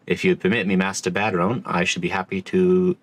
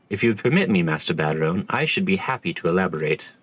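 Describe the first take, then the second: First: "If you'd permit me" in the barkeep's lightly rough voice; wrong voice: barkeep. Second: A lightly voiced stiff commodore. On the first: Acted. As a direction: read the commodore's line as the tavern keeper by mistake. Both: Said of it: "oh, wait, this is a different voice".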